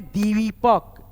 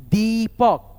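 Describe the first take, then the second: First: Said in the usual way. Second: दीपक with a louder, stretched long ई in दी; teacher drawing out the ई in दीपक for students; drawn-out long ee. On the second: Shown as a demonstration. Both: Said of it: "खींचता हुआ उच्चारण है".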